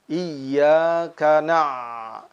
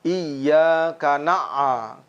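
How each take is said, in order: First: The final sound flows smoothly without bouncing. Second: The final sound bounces with an extra echo. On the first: The speaker calls it right. "mengalirnya suara" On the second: The speaker calls it wrong. "Dan juga tidak memantul"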